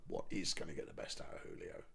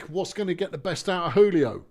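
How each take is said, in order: First: Breathy whisper to himself. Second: Said in the usual way. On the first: Real, not acted. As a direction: mutter it under breath. Repeats it whispered.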